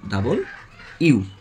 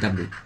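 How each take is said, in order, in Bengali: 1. অক্ষরের নামটি তিন শব্দাংশে বলা হয়। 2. অক্ষরের নামটি দুই শব্দাংশে সংকুচিত করে বলা হয়। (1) "এটা সঠিক উচ্চারণ হচ্ছে ডাবল ইউ" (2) "আমরা সবাই বলি ডাব্লু"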